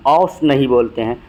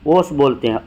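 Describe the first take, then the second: First: औस with an open 'aw' instead of o; open au vowel. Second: ओस with a pure 'o', as in 'oh'; plain o vowel. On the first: Teacher showing the rejected form, open 'aw' in औस. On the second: Teacher giving the accepted form, pure o in ओस. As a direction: say ओस with a rounded o. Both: Shown as a demonstration.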